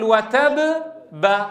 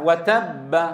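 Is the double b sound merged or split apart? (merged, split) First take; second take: split; merged. First: The first b bounces before a second b. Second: The two b sounds merge into one held b. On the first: "هكذا نطقناها مفككة ما فيها إدغام" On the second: "مشددة مفتوحة"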